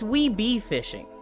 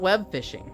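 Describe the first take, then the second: First: The B is said as its own syllable. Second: The B closes the first syllable, 'web'. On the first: The speaker calls it right. "say we and then pronounce the B on its own and then fishing" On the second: The speaker calls it wrong. "It's not web fishing"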